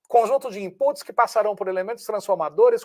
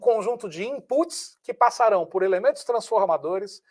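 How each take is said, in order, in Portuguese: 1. Ela é dita em ritmo mais rápido. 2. Ela é dita em ritmo mais lento, normal.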